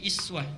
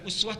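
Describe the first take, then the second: First: The word begins with a front i vowel. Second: The word begins with a rounded u vowel. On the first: Even the small qualities are worth following. "dibacanya bukan uswah tapi iswah, i di bawah" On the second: The lofty, great qualities are worth following. "uswah harakatnya di atas"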